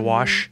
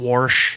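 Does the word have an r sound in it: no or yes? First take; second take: no; yes. First: The word is said without an r sound. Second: The word is said with an r sound. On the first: This is the usual way to say it. "instead of wash" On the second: This is how a Deep South grandmother said it. "My grandmother had fun ways to pronounce a lot of things being from the Deep South"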